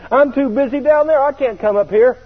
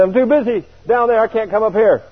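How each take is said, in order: First: Much higher, insistent whine; high plea to stay on earth; pleading protest. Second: Higher, insistent plea; high plea to stay on earth; pleading protest. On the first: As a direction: protest like a kid who won't go. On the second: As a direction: beg off again. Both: Retold or imitated. Repeated protest to Jesus.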